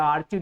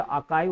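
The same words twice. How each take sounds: First: आर्चीव said with a ch sound, as misread from the spelling; wrong pronunciation. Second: आर्काइव said with a k sound, r silent; correct pronunciation. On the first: Teacher showing students the common misreading, mock wrong pronunciation. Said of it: "इसको कई लोग आर्चीव पढ़ लेते हैं". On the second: Teacher giving students the right pronunciation, clear and correct. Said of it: "सीएच को क पढ़ा जाएगा". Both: Shown as a demonstration.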